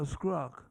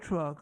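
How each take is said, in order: First: The word begins with an sk sound. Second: The word begins with a clear tr sound. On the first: "Not a truck, a scruck. Can't say truck" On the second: "Not a truck"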